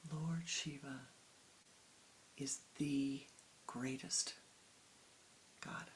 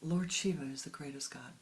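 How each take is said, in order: First: Soft, drawn-out, reverent imitation of the priest; a quiet try at the priest's devotion; imitating the priest's fervor. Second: Fuller, firmer second try at the priest's conviction; imitating the priest's fervor. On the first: Priest tells Swamiji Shiva is greatest, soft reverent imitation. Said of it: "I didn't say it exactly the way he said it". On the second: Priest declares Shiva the greatest God, firmer fervent imitation. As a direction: say it with the priest's knowing certainty. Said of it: "Still didn't get it right".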